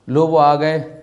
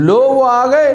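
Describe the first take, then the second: First: The phrase sounds mocking and sarcastic. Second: The phrase sounds alarmed, like a disaster arrived. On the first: The person arriving is being ridiculed. "तमस्खुर है, मजाक उड़ा जा रहा है" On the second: The arrival brings upheaval to the house. "यानी एक भौचाल आ गया, शौर क्या आ गया, ज़लज़ला आ गया घर में"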